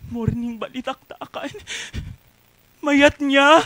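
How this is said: It is said in a pleading way.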